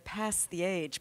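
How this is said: It is said with an American accent.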